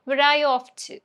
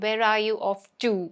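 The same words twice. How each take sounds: First: The word 'to' is said reduced. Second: The word 'to' is said in full. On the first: The speaker calls it right. "To ഒക്കെ എപ്പോഴും to ആവും" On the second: The speaker calls it wrong. "Malayalees ആണെങ്കിൽ ഇങ്ങനെ പറയും... അങ്ങനെ പറയരുത്"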